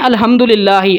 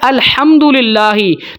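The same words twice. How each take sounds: First: The h is a light, plain breathy sound. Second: The h is a raspy sound from the throat. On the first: All smoke is for God. The speaker calls it wrong. "लेकिन हम पढ़ रहे होते हैं" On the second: All praise is for God. The speaker calls it right. "अल्लाह ताला ने नाजिल किया है"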